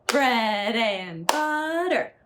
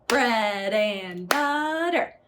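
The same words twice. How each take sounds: No difference in how they are said.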